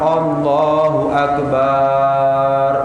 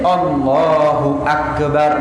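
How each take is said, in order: First: The vowel in Akbar is drawn out long. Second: The vowel in Akbar is kept short. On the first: It turns into a word for a big drum or a menstruating woman. The speaker calls it wrong. "enggak sah" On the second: It means God is the greatest. The speaker calls it right. "Yang betul kan pendek"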